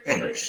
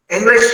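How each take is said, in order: First: "English" soft and unlifted; low-key intonation demo. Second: "English" high, loud and rising; demonstrated intonation. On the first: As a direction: drop the volume right down on "English". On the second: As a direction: lift "English" sharply in pitch and volume. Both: Shown as a demonstration. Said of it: "intonation में problem किया है".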